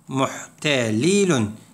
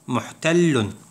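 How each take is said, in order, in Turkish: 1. Bir ünlü iki l sesini ayırır. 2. İki l sesi birleşip tek uzun bir l olur. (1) "Aslında muhtelilun şeklindeydi" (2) "şeddelenince ... Muhtellun şeklinde yazmış oluruz"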